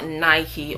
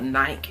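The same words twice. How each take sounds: First: The brand name is said the non-UK way. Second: The brand name is said the UK way.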